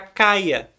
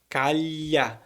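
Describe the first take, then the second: First: The middle sound is an 'ee' glide. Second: The middle sound is a palatal 'lh'.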